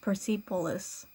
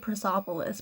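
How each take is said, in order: First: The vowel after 'Pers' sounds like E. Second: The vowel after 'Pers' sounds like O. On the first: The speaker calls it right. "but it's an E, so it's Persepolis" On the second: The speaker calls it wrong. "It's an E, not an O, but I want to say Persepolis"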